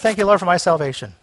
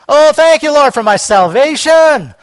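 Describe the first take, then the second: First: It is said flatly, without conviction. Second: It is said with fervent, stirred-up excitement.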